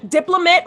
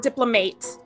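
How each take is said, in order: First: The last syllable sounds like 'mat'. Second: The last syllable sounds like 'mate'.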